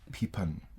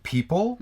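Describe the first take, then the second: First: The word ends with an n sound. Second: The word ends with an l sound.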